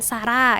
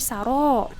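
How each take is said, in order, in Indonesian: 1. R-nya tipis, dengan vokal yang tipis. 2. R-nya tebal, dengan vokal yang penuh. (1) "bukan sara ya" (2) "ro-nya ditebalkan ya"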